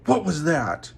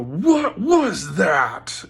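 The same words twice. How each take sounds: First: Raised, higher-pitched yell. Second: Loud, drawn-out yell with raised pitch; deep subhuman roar. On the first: Speaker retelling how he yelled at a girl at work, yelled. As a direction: yell it at her in angry disbelief. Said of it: "And I yelled at her and I go". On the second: Speaker re-enacting his yell at the girl, subhuman roar. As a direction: bellow each word slowly with righteous might. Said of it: "this, like, deep subhuman". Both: Retold or imitated.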